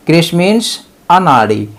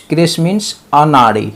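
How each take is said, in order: Both takes have the same delivery.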